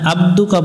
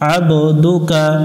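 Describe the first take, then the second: First: The b sound has no echoing bounce. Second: The b sound has an echoing bounce. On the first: The speaker calls it wrong. "এখানে আব্দুকা পড়া যাবে না" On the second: The speaker calls it right. "বা অক্ষরের উপর সুকুন থাকলে প্রতিধ্বনি সৃষ্টি করতে হবে"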